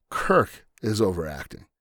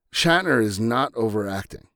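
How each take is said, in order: First: "Kirk" hit hardest, falling at the end; stress on Kirk. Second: "Shatner" leaned on as the key word; stress on Shatner. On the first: Host correcting fans, stressing Kirk. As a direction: land the contrast on "Kirk". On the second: Host correcting fans, stressing Shatner. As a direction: punch "Shatner" to set it against Kirk. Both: Shown as a demonstration.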